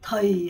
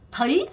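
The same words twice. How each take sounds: First: The pitch falls on the word. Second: The pitch rises on the word. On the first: "더이 하고 내려갔던" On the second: "더이 하고 올라가요"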